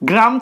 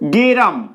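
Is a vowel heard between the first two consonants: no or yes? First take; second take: no; yes. First: The g and r are said together as a cluster. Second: An e vowel is heard between g and r. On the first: "গয় রফলা ছিল" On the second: "সেই গ আর রয়ের মাঝখানে একটা এ স্বরধ্বনি আসলো"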